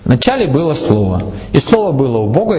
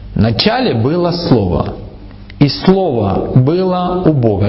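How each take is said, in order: First: The words are read plainly, without added emphasis. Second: The words are read with strong added emphasis.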